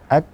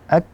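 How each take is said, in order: No difference in how they are said.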